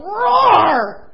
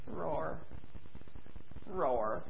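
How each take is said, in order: First: Huge roaring shout, high and loud; mighty lion roar. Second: Tiny feeble roar; a roar with no power left; weak little roar. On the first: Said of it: "used to hearing him go". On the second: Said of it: "he went". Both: Acted.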